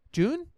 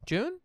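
First: High squeaked question; surprised question. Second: High squeaked question again; double-check it in disbelief; surprised question. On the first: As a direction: ask it in sudden doubt. Unsure of the month. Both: Real, not acted.

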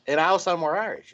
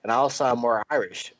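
First: "and I'll sound more Irish" in a light put-on Irish lilt; mock Irish accent. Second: Said in the usual way. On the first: Shown as a demonstration. Host jokes about the Irish accent, mock Irish lilt. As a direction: slip briefly into a playful Irish accent. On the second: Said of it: "John will sound more English".

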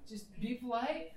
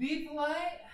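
First: Slow emphatic. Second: Pilot voice. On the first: Pilot repeats advice slower. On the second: Pilot advises politely. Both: Acted.

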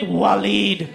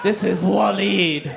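First: Said in the usual way. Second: Slow, sinister naming of Waleed; ominous. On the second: Shown as a demonstration. Comic presenting his old friend as a villain, slow and ominous. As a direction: say Waleed slowly like a villain's name. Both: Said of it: "even his name sounds evil".

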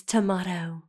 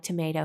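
First: "tomato" with a long ah in the middle; British "tomato". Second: Said in the usual way. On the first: Shown as a demonstration. Boyfriend correcting her, British long-ah "tomato". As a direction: say "tomato" the British way, tuh-MAH-toh. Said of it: "how to do a U K accent". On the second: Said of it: "He would correct me".

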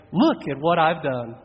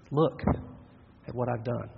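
First: Proud boast. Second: Despairing. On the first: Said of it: "It either ends in pride". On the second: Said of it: "Or we come in despair". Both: Retold or imitated.

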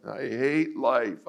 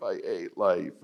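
First: Slow, higher drawn-out whine; hammed-up misery; mock moping. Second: Deflated repeat; mock moping, fading. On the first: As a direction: stretch every word like a sulky teen. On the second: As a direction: let it die away in gloom. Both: Moping teen.

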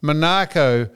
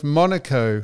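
First: "Monaco" as muh-NAH-co; stressed second syllable. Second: "Monaco" as MON-uh-co; stressed first syllable. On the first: Co-host lists how some people say it, "Monaco" as muh-NAH-co. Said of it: "and some people say". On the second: Co-host gives the other version, "Monaco" as MON-uh-co. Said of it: "instead of Monaco". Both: Shown as a demonstration.

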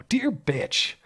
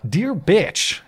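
First: Much higher, softer mock-prim read; mock snooty reading. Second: Higher, reading out the insult; reading the letter. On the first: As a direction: say it again in a prissy voice. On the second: Retold or imitated. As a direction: read it like a snide letter. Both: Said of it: "as I said at the top".

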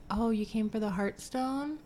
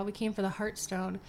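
First: Light puzzled gargoyle, rising at the end; a hint of a dim creature's question; mock gargoyle. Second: Said in the usual way. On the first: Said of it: "the gargoyle literally goes".

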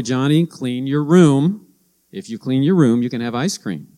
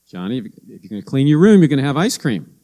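First: Mom telling son. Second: Mom repeating herself. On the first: Mom instructing her son. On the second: Mom checks back on Johnny and repeats the deal, fast and pushy. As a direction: rush through the reminder, exasperated. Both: Retold or imitated.

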